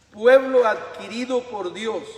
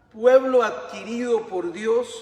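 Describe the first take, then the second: Both takes have the same delivery.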